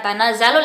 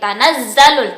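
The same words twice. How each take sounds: First: The z sound is short, not held. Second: The z sound is held before moving on. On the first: The speaker calls it wrong. "bukan tanazzalul" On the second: The speaker calls it right. "tapi tanazzalul"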